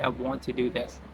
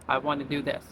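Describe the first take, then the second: First: Want to is said fully as two words. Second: Want to is shortened to wanna. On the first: The speaker calls it wrong. "They don't say" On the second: The speaker calls it right. "They just say"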